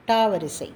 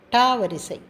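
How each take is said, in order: Both takes have the same delivery.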